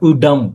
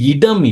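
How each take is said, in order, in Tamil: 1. முதல் உயிரெழுத்து 'u' நோக்கிய சாயலுடன் ஒலிக்கிறது. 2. முதல் உயிரெழுத்து சாதாரண 'i' போல ஒலிக்கிறது. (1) "இ என்ற சவுண்ட் இல்ல, உ என்ற சவுண்ட்" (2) "இது இடம் இல்ல"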